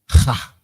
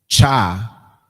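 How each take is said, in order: First: The syllable starts with an h sound. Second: The syllable starts with a ch sound. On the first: The speaker calls it right. "we're saying ha" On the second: The speaker calls it wrong. "we're not saying cha"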